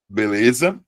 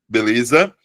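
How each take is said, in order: The two takes are said the same way.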